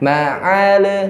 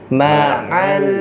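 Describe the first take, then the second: First: The final L is released with a bounce. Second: The final L is held without a bounce. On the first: The speaker calls it wrong. "jangan ma'al" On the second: The speaker calls it right. "ya jangan dipantulin"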